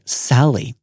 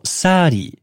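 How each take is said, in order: First: The middle consonant is a clear L sound. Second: The middle consonant is a flapped R-like sound.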